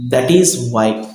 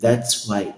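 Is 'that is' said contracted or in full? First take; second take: full; contracted. First: 'That is' is said as two full words. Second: 'That is' is joined into one syllable 'that's'.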